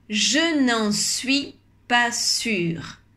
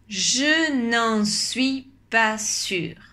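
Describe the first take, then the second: No difference in how they are said.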